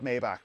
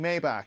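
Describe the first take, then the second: First: The word has an English-style pronunciation. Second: The word has a German-style pronunciation. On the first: The speaker calls it wrong. "I've said Maybach for the longest time" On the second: The speaker calls it right. "that's how they pronounce it. It is a German word"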